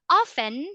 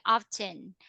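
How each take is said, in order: First: The t sound is silent. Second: The t sound is pronounced. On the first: "often it's like silently, that is American English" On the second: "they also say often because of the British"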